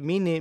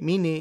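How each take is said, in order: No difference in how they are said.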